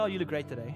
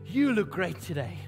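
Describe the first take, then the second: First: The compliment sounds offhand and insincere. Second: The compliment sounds warm and sincere.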